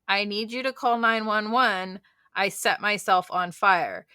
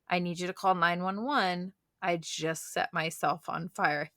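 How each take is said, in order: First: It is said in a panicked voice. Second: It is said in a calm voice.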